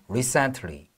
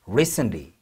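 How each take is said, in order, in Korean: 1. 이 단어는 천천히 또박또박 발음됩니다. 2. 이 단어는 빠르게, 자연스러운 리듬으로 발음됩니다. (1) "천천히 발음할 때는" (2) "리듬감 있게 발음이 될 때는"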